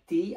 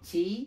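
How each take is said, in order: First: The syllable starts with a plain 't' sound. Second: The syllable starts with a 'ch' sound. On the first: The speaker calls it wrong. "তাহলে এটা ভুল হবে" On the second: The speaker calls it right. "এটা হচ্ছে সঠিক"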